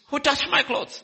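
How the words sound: It sounds harsh and demanding.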